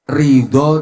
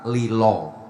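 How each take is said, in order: First: It is said with the original Arabic sounds. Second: It is said with Javanese sounds, as lilo.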